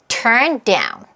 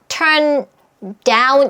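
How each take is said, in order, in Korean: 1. 두 단어는 끊김 없이 이어서 발음합니다. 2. 두 단어는 따로 발음하고, 그 사이에 끊어 줍니다. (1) "turn down 이렇게 소리 내시면 됩니다" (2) "이렇게 따로따로 할 필요가 없고"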